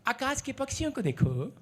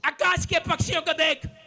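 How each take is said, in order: First: It is read in a soft, gentle tone. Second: It is read in a sharp, scolding tone. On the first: It is just a pleasant observation. The speaker calls it wrong. "ऐसे नहीं पढ़" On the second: It is a rebuke to the believers. The speaker calls it right. "डांट है ये"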